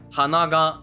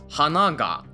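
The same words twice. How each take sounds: First: The pitch stays high on the particle ga. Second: The pitch drops on the particle ga. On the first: It means nose. "meaning nose" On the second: It means flower. "meaning flower"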